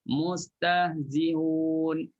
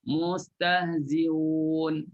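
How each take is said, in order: No difference in how they are said.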